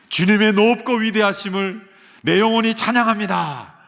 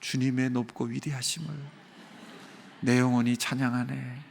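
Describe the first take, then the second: First: It is said loudly, in a raised voice. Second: It is said quietly, almost murmured. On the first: The praise matches the greatness it honors. The speaker calls it right. "그렇게 큰 소리를 내야" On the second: The praise falls short of the greatness it honors. The speaker calls it wrong. "작은 소리로"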